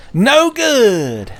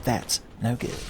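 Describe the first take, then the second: First: Much higher, loud wailing "No good!"; shrill Sonic yell. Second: Soft Sonic catchphrase. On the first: Sonic at Tails' bedside, high loud "No good!". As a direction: belt out "No good!" like a cartoon hero in despair. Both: Retold or imitated. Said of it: "Sonic lecturing Tails".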